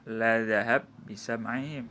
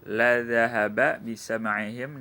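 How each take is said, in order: First: The two b sounds merge into one. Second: The vowel before the second b is pronounced.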